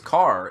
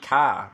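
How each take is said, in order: First: The final r sound is pronounced. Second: The final r sound is dropped. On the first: "my last name is Carr" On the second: "if you were a Bostonian ... it would be Ka"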